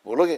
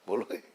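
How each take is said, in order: First: बोलोगे? thrown higher and louder with a sharp rise; pressing question. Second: Said in the usual way. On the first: Shown as a demonstration. Preacher pressing a silent devotee, loud rising बोलोगे?. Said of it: "repeats question louder". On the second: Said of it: "repeats question to listener".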